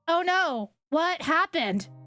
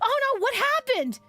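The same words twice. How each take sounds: First: It is said flatly, without emotion. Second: It is said with real emotion.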